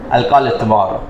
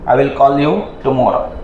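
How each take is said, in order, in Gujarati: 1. શબ્દો ઘટાડીને અને એકબીજામાં ભળી જાય એ રીતે બોલાય છે. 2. દરેક શબ્દ પૂરો અને સ્પષ્ટ બોલાય છે. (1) "આપણે આઈ ને આખું આઈ બોલીએ, વિલ ને આખું વિલ બોલીએ. એ એવું કઈ બોલે નહીં" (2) "આપણે ચોખ્ખું બોલશું"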